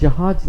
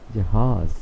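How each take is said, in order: First: The final consonant sounds like English 'j'. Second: The final consonant sounds like English 'z'. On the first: The speaker calls it wrong. "ये जहाज नहीं है" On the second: The speaker calls it right. "It is जहाज"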